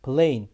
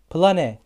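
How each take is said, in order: First: Plain said plein, final e silent; correct reading. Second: Plane read letter by letter, plah-neh; the spelled-out mistake to avoid; wrong reading. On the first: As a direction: model the right English vowel. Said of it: "Plain diye okunuyor". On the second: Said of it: "plane diye okunmuyor". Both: Shown as a demonstration.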